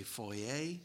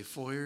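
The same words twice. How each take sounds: First: "foyer" said FOY-ay, slow, ending open; French-style pronunciation of foyer. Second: "foyer" said FOY-er, ending in an r sound; "foyer" with a hard -er ending; local pronunciation of foyer. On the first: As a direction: say "foyer" with an -ay ending, drawn out slowly. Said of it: "you say foyer". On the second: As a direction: say "foyer" to rhyme with lawyer. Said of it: "We say foyer". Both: Shown as a demonstration.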